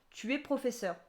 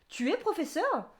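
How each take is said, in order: First: The pitch falls at the end. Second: The pitch rises at the end. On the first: It states a fact. "C'est une affirmation" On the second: It asks a question. "Ça monte"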